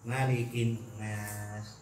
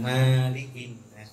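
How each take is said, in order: First: The first vowel of malik is short. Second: The first vowel of malik is long. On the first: The speaker calls it right. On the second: The speaker calls it wrong.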